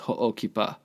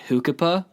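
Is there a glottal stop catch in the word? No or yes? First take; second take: yes; no. First: The word has a brief glottal catch after ho. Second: The word runs smoothly without a glottal catch. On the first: The speaker calls it right. "It's a glottal" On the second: The speaker calls it wrong. "they were pronouncing it Hukipa"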